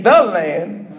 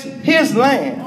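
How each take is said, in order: First: "the land" with THE singled out; stress on THE. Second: "his land" with HIS set firmly apart; stress on HIS. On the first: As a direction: lean on "the" in "the land". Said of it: "we keep saying". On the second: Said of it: "but it's his land". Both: Shown as a demonstration.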